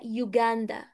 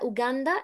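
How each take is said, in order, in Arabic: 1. الكلمة تبدأ بصوت 'yoo'. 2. الكلمة تبدأ بصوت 'oo' عادي. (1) "هي يوغاندا ماشي. اليو في الأول دي بتتنطق عادي" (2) "هي مش أوغندا ولا أوغندا"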